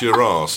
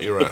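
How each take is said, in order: First: The word is said as British 'arse', long vowel. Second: The word is said as American 'ass', short vowel. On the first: The speaker calls it right. "Say it properly. It's your ass" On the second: The speaker calls it wrong. "not your ass"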